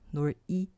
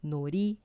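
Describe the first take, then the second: First: The word is split with a break mid-word. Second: The consonant links smoothly into the next syllable. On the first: The speaker calls it wrong. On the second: The speaker calls it right.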